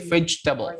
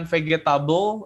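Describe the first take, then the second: First: Vegetable dibaca fedʒtebəl, g jadi j; vegetable diucapkan vedʒtebəl; correct vegetable. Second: Vegetable dibaca fegetabəl dengan g; vegetable diucapkan fegetabəl; wrong vegetable. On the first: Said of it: "tapi vegetable". (vegetable dengan j) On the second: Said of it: "bukan vegetable". (vegetable dengan g keras) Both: Shown as a demonstration.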